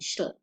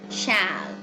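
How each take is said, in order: First: The word is said with its vowel reduced. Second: The word is said with a full vowel. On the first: "the second one is a characteristic of very rapid speech" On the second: "The strong forms of shall mm, are pronounced with this vowel sound"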